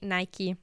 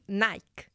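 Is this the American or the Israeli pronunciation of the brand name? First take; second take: American; Israeli. First: It is pronounced the way Americans say it. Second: It is pronounced the way Israelis say it. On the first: "in America, you say Nike" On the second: "Because we say Nike"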